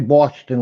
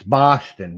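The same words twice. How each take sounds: First: The first vowel is an O sound. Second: The first vowel is an A sound. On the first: This is how the speakers themselves say it. "like you and I" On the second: This is how someone else picked up saying it. "with an A instead of an O"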